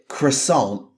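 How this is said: It is said with an English pronunciation. The speaker calls it wrong.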